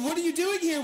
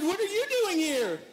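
First: High, louder startled "What are you doing here?"; a cleaner jumps at stowaways; startled question. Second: Even higher, put-on voice throwing the question back; mock startled echo. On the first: Retold or imitated. Cleaning lady finding passengers on empty plane, startled. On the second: Passengers echoing the cleaner's question, mock startled. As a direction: parrot her shock right back at her.

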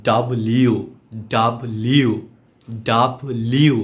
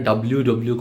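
First: "ডাব্লিউ" broken into two stretched beats; slow, syllable-by-syllable "ডাব্লিউ"; corrected letter W. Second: Said in the usual way. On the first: Shown as a demonstration. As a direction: split "ডাব্লিউ" after the B, hold the ending. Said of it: "এটা উচ্চারণ হবে". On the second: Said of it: "কত কিছু বলি".

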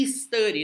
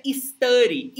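First: Study starting straight on the s sound, stɐri, no vowel before it; correct English way. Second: Study said as istudy, with an extra i before the s; mock mispronunciation istudy; wrong Brazilian way. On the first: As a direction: begin study directly with s. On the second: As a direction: add a vowel: istudy, the common Brazilian mistake. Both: Shown as a demonstration. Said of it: "Não é study".

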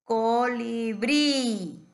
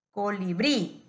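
First: COLIBRÍ stretched slowly and loud, syllable by syllable; drawn-out demonstration. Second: Said in the usual way. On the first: Shown as a demonstration. Teacher helping a child, COLIBRÍ slow and stretched. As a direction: draw out each syllable of COLIBRÍ. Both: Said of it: "a ver, te ayudo".

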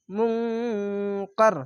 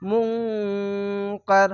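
First: মুনকার slow with hummed ন; chanted মুনকার; ikhfa gunna. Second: মুনকার drawn out slowly, nasal held, stopping on র; slow chanted মুনকার with sukun ending; ikhfa with stop. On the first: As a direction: stretch মুনকার's nasal then stop. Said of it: "এখানে ইকফা গুন্না". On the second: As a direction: hold the ন of মুনকার, then stop. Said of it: "তয় জায়গায় থামতে হবে". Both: Shown as a demonstration.

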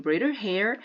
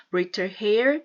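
First: "brittle" with the T tapped, before "hair"; flapped T pronunciation. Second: "Brittle" with a crisp T before "hair"; "Brittle" with the T fully sounded; clear T pronunciation. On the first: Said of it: "또는 brittle hair". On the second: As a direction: say "Brittle hair" as BRIT-tul hair. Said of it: "Brittle hair 또는 brittle hair". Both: Shown as a demonstration.

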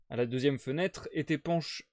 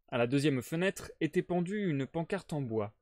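First: Mot écorché, « était penche- » lu de travers puis coupé; trébucher sur « penche- » avant de s'arrêter; lecture ratée. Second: Said in the usual way. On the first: Real, not acted. (lapsus de lecture)

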